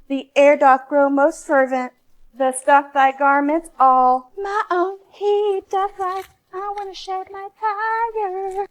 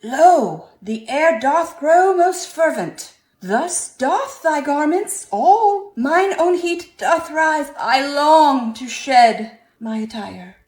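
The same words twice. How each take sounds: First: Loud, slow sung reprise, ends much higher; Shakespearean singing. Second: Loud, higher, slow theatrical singing; sung, belt it out like a Renaissance troubadour; Shakespearean singing. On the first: Acted. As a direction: sing it again, more theatrical, climbing at the end. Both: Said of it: "rewritten Shakespearean style".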